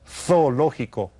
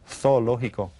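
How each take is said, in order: First: The z is said as a th sound. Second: The same.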